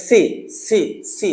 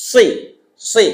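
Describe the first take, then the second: First: "সি" with plain light s; easy hissed "সি", no pressure; normal Seen SI. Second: "সি" heavy, air pushed past the tongue; pressed Saad SI. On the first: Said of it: "normal". (নরমাল সিনের "সি") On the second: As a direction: press thick air through "সি". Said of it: "জিহ্বা দিয়ে বাতাসে চাপ দিয়ে বলবেন". (বাতাসে চাপ দিয়ে মোটা "সি") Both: Shown as a demonstration.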